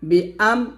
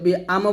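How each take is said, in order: First: The vowel after bi is started cleanly and clearly. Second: The vowel after bi is slurred, not cleanly separated. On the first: The speaker calls it right. "Clear করে" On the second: The speaker calls it wrong. "বি আম বলা যাবে না"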